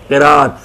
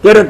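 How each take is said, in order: First: The vowel after the r is drawn long. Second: The vowel after the r is short. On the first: It means recitation or reading. The speaker calls it right. "लंबा करके किराअत" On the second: It names a woman's menstrual period. The speaker calls it wrong. "किरत नहीं बोलना चाहिए"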